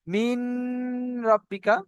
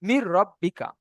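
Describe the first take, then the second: First: "মিন" with a long hummed n, then "রব্বিকা"; nasal hum on "মিন", kept apart from "রব্বিকা"; wrong nasal reading. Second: "মির রব্বিকা" with the n gone into a doubled r; doubled r joining "মির" and "রব্বিকা"; full merging. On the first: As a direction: hold the n of "মিন" before starting "রব্বিকা". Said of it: "পড়তে হবে হয়তো". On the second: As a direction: merge "মির" straight into "রব্বিকা", no hum. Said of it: "একেই বলা হয় ইদগামে তাম". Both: Shown as a demonstration.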